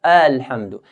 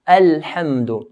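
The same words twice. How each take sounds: First: Alhamdu with the A drawn long; stretched alif. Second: Alhamdu slowly with a short light A; one count on the A of Alhamdu; short light alif. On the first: Teacher shows Alhamdu wrongly stretched. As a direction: drag the A in Alhamdu. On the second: Teacher models Alhamdu with a short alif. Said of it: "we don't stretch the alif". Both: Shown as a demonstration.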